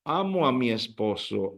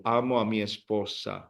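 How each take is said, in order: First: "amo a mi esposo" softer, stress on "amo"; Spanish model. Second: "amo a mi esposa" lower and softer, stress on "amo"; Spanish model. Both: Shown as a demonstration. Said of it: "now you say".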